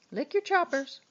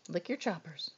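First: Much higher pet-talk sing-song. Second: Softer, lower coaxing to the dog. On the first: Owner coaxing her dog after a treat, high sing-song. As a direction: lift it up high and bright for the dog. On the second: Owner coaxing her dog after a treat, soft and low. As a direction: murmur it gently to the pet. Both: Real, not acted.

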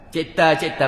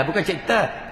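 First: Cipta dengan ta ringan; correct cipta. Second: Cipta dengan ta tebal dan tinggi; wrong cipta. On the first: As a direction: sebut cipta betul. (cipta betul) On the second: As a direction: tunjuk cipta salah. (cipta salah) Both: Shown as a demonstration.

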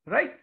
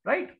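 Both takes have the same delivery.

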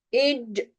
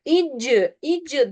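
First: "İcc" stopped dead on the c; cut off short. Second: "icc" released into an extra i-like vowel; wrongly adding a vowel. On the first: Teacher showing where to stop, "İcc" cut short. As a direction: end "İcc" on the consonant, no vowel after. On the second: Teacher warns student against "icc" with a trailing vowel. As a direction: let "icc" run on into a second syllable. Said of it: "esre varmış gibi okursun". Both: Shown as a demonstration.

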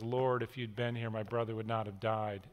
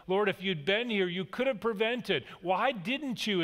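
First: Mary weeping at Jesus' feet, softly grieving; mild weeping. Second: Reproachful. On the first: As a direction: lower and softer, grieving. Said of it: "Mary's weeping and says". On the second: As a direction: let the blame creep into the question. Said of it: "is implied in the sentence". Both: Retold or imitated.

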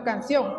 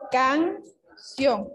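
First: Said in the usual way. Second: "Canción" said as two separate beats, can, ción; split into syllables. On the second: Shown as a demonstration. Teacher showing pupils how to separate a word, "Canción" syllable by syllable. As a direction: break "Canción" after "Can", with a clear pause before "ción". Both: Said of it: "separar la palabra en sílabas".

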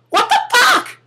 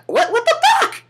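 First: Squeaky falsetto disbelief, falling at the end; a comic high yelp, this time dropping; shocked. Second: Squeaky falsetto disbelief, rising at the end; a comic high yelp of outrage; shocked. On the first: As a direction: squeal it, landing it down. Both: Pretend. Shocked person facing the cicada.

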